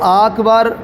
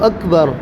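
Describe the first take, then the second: First: Both vowels in the word are lengthened. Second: Both vowels in the word are short. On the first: The speaker calls it wrong. "अकबर को आकबार या अकबार पढ़ा, तो ऐसी सूरत में नमाज नहीं होगी" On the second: The speaker calls it right. "आप कहें मेरे साथ अल्लाहु अकबर"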